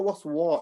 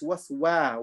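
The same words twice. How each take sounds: First: It is said heavy, with a full mouth. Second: It is said light, with an empty mouth. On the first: The speaker calls it wrong. "It's not waswa" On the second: The speaker calls it right. "it's waswa, wa, wa, empty mouth"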